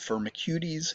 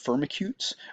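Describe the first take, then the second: First: The word is said like a Greek word. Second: The word is read as it looks in English. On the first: The speaker calls it right. "you should pronounce it like a Greek word. It's Firmicutes" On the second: The speaker calls it wrong. "I know it looks like Firmicutes"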